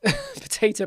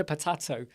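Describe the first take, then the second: First: "potato" with the middle a as in day, pə-TAY-to, laughing; American potato. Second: "potato" with a broad open middle a, pə-TAH-to; a softer "potato", pə-TAH-to; British potato. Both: Shown as a demonstration.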